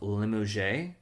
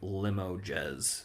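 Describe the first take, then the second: First: The name is given a French-style pronunciation. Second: The name is given a plain English pronunciation. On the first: "I don't even know if I'm saying that right" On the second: "plain old English would be like"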